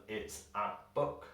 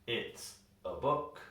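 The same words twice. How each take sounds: First: It's a book with a full A as in cat; unreduced a. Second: A reduced to uh in it's a book; conversational schwa. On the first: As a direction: give the a in it's a book a strong vowel. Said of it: "instead of it's a book". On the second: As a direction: say it's a book with a weak, unstressed a. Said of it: "In a normal conversation". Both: Shown as a demonstration.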